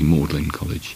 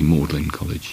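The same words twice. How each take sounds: First: The name is said like 'Maudlin'. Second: The name is said like 'Maudlin'.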